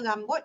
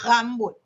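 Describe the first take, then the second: First: "rambut" with a front, tongue-tip r; Perak r. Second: "rambut" with a throaty uvular r; Kedah uvular r. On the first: Lecturer showing students the Perak pronunciation of rambut. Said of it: "orang Perak kata". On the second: Lecturer showing students the Kedah pronunciation of rambut. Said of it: "dia kata". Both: Shown as a demonstration.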